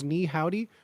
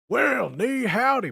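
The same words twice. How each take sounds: First: A hint of a Texan twang on Ni howdy; understated cowboy Ni howdy; light cowboy accent. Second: Slow, higher Texan drawl on ni howdy; mock cowboy drawl with a Mandarin greeting; cowboy accent. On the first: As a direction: toss off Ni howdy with just a trace of a cowboy accent. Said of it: "has, like, a cowboy accent and goes". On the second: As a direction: ham up a Southern cowboy saying well, ni howdy. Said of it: "has, like, a cowboy accent".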